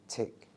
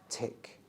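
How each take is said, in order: No difference in how they are said.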